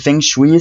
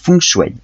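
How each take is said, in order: First: It is read letter by letter as French spelling. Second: It is said with a Chinese-style pronunciation. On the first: "ça s'écrit feng shui" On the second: "ça se prononce feng shui"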